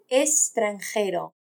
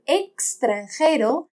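First: The x is pronounced as s. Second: The x is pronounced as ks.

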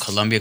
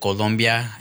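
First: The second syllable has an 'u' vowel. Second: The second syllable has an open 'o' vowel. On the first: It names a clothing brand or university. The speaker calls it wrong. "because everybody said Colombia" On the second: It names the actual country. The speaker calls it right. "Colombia is how you say it. That's the actual country"

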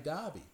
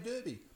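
First: Said the way Eastern Australians pronounce it. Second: Said the way Western Australians pronounce it. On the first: "if you're talking in the East, you wouldn't say Derby, you'd say Derby" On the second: "But you come to WA, you say Derby"

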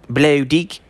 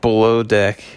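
First: It is said in a New Zealand accent. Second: It is said in his normal American accent.

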